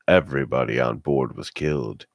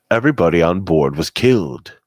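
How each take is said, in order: First: It is said in a flat, plain tone. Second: It is said in an almost cheerful tone.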